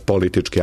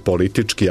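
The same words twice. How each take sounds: First: The stress is on the first syllable. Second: The stress is on the second syllable. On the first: The speaker calls it wrong. "a ne politički" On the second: The speaker calls it right. "isto važi i za prideve"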